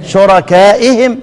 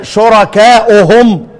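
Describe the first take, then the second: First: "شركائهم" said shurakaa'ihim; kasra form. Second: "شركائهم" said slowly as shurakaa'uhum; damma form. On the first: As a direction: end "شركائهم" on i vowels, -i-him. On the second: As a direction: end "شركائهم" on u vowels, -u-hum. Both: Shown as a demonstration. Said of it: "تختلف عن رسم ايه؟".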